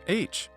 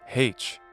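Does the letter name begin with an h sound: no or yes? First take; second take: no; yes. First: The letter name starts without an h sound. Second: The letter name starts with an h sound. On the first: This is the usual way of saying it. "we don't pronounce the H ... nor in the name of the letter itself" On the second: This is how it is said in places like Ireland. "where they still say H"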